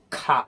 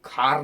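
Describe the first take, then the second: First: "खा" ending on the open vowel, silent r; British pronunciation. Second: "खार" with the final r sounded; wrong pronunciation. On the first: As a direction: drop the r and leave "खा" open. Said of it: "British English में". (British "खा", आख़िर में र नहीं) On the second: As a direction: close "खार" on an audible r. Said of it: "खार नहीं बनना". ("खार", आख़िर में र बोलते हुए) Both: Shown as a demonstration.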